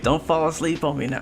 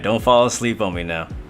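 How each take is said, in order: First: The voice is raised to a higher pitch. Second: The voice is at its usual lower pitch.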